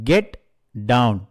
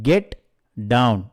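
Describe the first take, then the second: Both takes have the same delivery.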